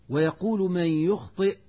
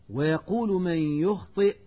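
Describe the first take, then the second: The two takes are said the same way.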